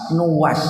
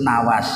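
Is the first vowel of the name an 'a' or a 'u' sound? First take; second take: u; a. First: The first vowel is a 'u' sound. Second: The first vowel is an 'a' sound. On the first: This is the correct form of the name. The speaker calls it right. "padahal yang benar sebetulnya bukan Nawas, Nuwas" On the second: This is how people commonly say it. The speaker calls it wrong. "ini sering disebut Nawas"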